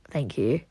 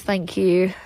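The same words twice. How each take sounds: First: Veel zachter en lager nagezegd; soft repeat. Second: Said in the usual way. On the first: Real, not acted. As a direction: mompel het bedankje nog eens zacht. Repeats thanks to chat.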